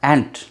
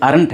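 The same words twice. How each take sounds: First: Ain't in one syllable, "ent"; recommended pronunciation. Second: Aren't in two syllables, "aa-runt"; alternative pronunciation. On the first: English teacher modelling the short form, one-syllable ain't. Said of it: "pronunciation होता है इसका". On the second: English teacher showing the alternative, two-syllable aren't. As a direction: say aren't with a full second vowel. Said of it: "aren't भी बोल सकते हैं". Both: Shown as a demonstration.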